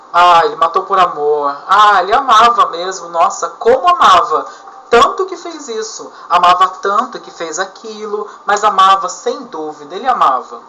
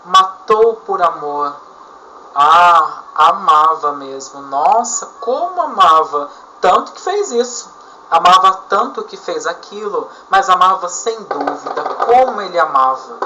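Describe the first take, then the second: First: Louder, hammed-up mock admiration; sarcastic repetition. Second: Ironic repetition. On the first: Teacher replaying the example for students, louder sarcastic tone. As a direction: lay the sarcasm on thick with each "amava". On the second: Teacher demonstrating irony to students, mock admiring tone. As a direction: praise him so we hear he hated her. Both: Shown as a demonstration. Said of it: "Isso serve de ironia".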